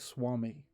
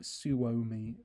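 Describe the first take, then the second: First: It is said as two syllables, swah-mee. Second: It is said as three syllables, soo-oh-mee. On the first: The speaker calls it right. "but no, it's like Swami" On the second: The speaker calls it wrong. "I used to think it would be like Suomi"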